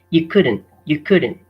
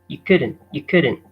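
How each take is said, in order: Both takes have the same delivery.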